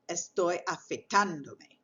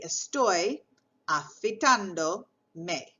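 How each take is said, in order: First: Afeitándome with the stress on the á of ando. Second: Said in the usual way. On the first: Shown as a demonstration. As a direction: lean on the á in afeitándome. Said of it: "I want to be sure to say". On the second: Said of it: "So I would say".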